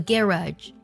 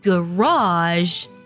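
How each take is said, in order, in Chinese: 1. 重音在第一个音节。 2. 重音在最后一个音节。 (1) "英式的发音呢读作garage ... 重音呢是在第一个音节上" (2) "在美式的发音当中呢读作garage，重音呢发生了变化"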